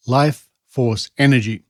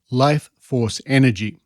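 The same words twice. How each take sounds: The two takes are said the same way.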